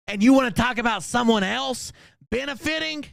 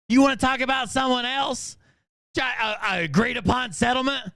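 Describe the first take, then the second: First: Angry rant. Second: Angry shout. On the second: Angry rant at her. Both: Real, not acted.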